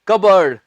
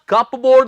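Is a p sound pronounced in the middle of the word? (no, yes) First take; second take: no; yes. First: No p sound is pronounced mid-word. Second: A clear p sound is pronounced mid-word. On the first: The speaker calls it right. "इसका सही accent है कबर्ड" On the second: The speaker calls it wrong. "इसमें हम पी नहीं उच्चारेंगे"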